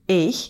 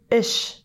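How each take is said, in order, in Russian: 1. Слово заканчивается резким звуком ch. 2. Слово заканчивается мягким звуком sh. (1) "«Эйх» – «я» превращается в «эш»" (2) "превращается в «эш»"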